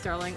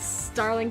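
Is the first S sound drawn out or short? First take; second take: short; drawn out. First: The first S sound is short and plain. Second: The first S sound is drawn out and hissed. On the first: "You could just say it as Starling" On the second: "I just say it as Starling, just kind of a, as a joke. Because I mean, there is like three S's there"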